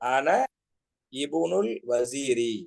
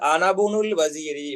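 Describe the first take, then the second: First: The vowel starting 'ibnul' is pronounced separately. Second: The vowel is dropped, running 'ana' into 'bnul'. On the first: The speaker calls it wrong. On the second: The speaker calls it right.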